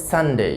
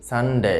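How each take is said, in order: First: সানডে ending in a gliding "dey"; full ei diphthong closing সানডে; correct pronunciation. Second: সানডে with short, unglided "de"; common mispronunciation. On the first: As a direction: say সানডে as "SUN-day". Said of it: "একসাথে হবে". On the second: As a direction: say সানডে as "san-de". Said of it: "এরকম না হয়". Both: Shown as a demonstration.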